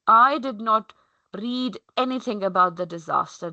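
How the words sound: The stress falls on the word I. "my stress is on the I"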